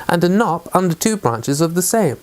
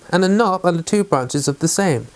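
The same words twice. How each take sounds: The two takes are said the same way.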